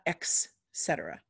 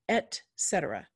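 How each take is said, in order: First: It begins with an 'ex' sound. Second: It begins with an 'et' sound. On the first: The speaker calls it wrong. "not ex cetera" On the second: The speaker calls it right.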